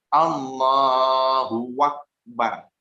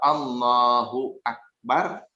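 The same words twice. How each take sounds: First: A w sound is slipped in before Akbar. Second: No w sound comes before Akbar. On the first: The speaker calls it wrong. "Ini yang salah terselip huruf waw" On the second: The speaker calls it right. "Yang betul"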